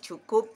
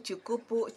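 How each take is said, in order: First: The word ends with a consonant sound. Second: The word ends with an extra vowel sound. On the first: The speaker calls it right. "cukup aja gitu dilatih" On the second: The speaker calls it wrong. "ini juga pasti cukupu"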